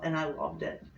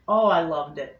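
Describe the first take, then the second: First: Said in the usual way. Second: Louder, stress on "loved" in "Oh, I loved it"; emphatic repeat. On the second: Real, not acted. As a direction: say "Oh, I loved it" again with more punch on "loved".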